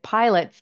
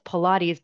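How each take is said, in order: First: It is said like 'pilots', two syllables. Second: It is said as pih-LAH-teez, three syllables. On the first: The speaker calls it wrong. "I was actually pronouncing it pilots" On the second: The speaker calls it right. "I know now that it's Pilates"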